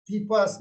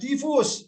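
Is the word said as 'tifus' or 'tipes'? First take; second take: tipes; tifus. First: It is said with p and e: tipes. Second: It is said with f and u: tifus. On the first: The speaker calls it right. "itu biasanya dibaca" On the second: The speaker calls it wrong. "Bukan tifus"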